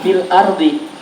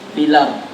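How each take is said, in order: First: The l closes fil before a separate ardi. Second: The l takes the hamza's vowel, sounding filar. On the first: The speaker calls it wrong. "Ini bacanya bukan fil ardi" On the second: The speaker calls it right. "bacanya filar"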